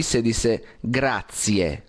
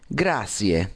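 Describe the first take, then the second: First: Grazie said slowly with a clear z, gratsie; slow teaching grazie, gratsie. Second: The learner's grazie with s; wrong grazie. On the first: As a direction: stretch out grazie to show the z. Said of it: "con z". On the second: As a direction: grazie pronounced grasie. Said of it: "no se dice así". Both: Shown as a demonstration.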